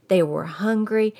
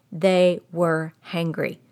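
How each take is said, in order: First: Said in the usual way. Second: "hangry" said slowly, with the h sound hit on "angry"; slow Texan "hangry"; Texas hangry. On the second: Shown as a demonstration. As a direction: drawl out "They were hangry" slowly, h first. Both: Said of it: "we have a saying".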